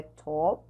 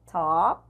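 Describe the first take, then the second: First: "top" with a Portuguese rounded O; "top" as Brazilian "tóp"; wrong O vowel. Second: "top" pronounced close to "tahp"; "top" with an American ah vowel; open A-like vowel. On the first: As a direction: say "top" with a full O. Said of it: "não é top". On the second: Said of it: "é um A pra um O". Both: Shown as a demonstration.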